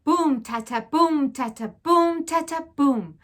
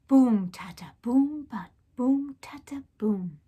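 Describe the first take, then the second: First: Loud rhythmic drum sounds; drumbeat chant. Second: Whispered drumbeat. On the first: Narrator mimics the council drum, loud chant. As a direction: beat it out with your voice. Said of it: "one long beat". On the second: Narrator ends the drum call, whispered chant. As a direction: drum sounds whispered, fading off. Drum echoes fading away. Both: A narrator's reading.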